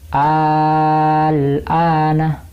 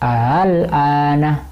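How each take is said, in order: First: The second hamza is replaced by a long vowel. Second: The second hamza is softened, between hamza and vowel. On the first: "Kalau dibaca ibdal" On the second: "Kalau dibaca tashil"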